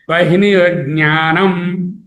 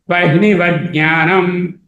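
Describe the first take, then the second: First: The t sound is kept before jnanam. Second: The t sound merges into the j sound. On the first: The speaker calls it right. "That's why I have split it" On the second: The speaker calls it wrong. "T sound, ta sound will disappear"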